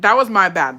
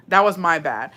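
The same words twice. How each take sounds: First: Louder admission. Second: Said in the usual way. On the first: Real, not acted. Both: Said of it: "repeats it".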